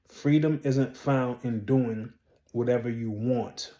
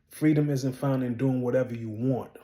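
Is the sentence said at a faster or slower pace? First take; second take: slower; faster. First: The sentence is said at a slower pace. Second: The sentence is said at a quicker pace.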